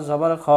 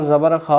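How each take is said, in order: No difference in how they are said.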